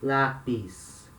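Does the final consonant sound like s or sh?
s. The final s sounds like s.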